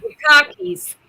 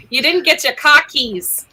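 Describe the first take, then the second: First: Put-on New England accent, cockies without the r, pitched up; playful New England repeat of cockies, without the r. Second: Put-on New England accent, cockies with an open broad o and no r. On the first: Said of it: "we were talking in accent". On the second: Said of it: "I blame my speech therapist for lack of accent".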